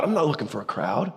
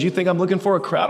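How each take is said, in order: First: "I'm not looking for a crowd" dropped much softer and lower; soft, settled denial; quiet firm answer. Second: Asked up, at normal level, as a question; questioning challenge; rhetorical question. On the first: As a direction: answer your own question quietly, with weight. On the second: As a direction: toss out "You think I'm looking for a crowd?" as a challenge. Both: Shown as a demonstration.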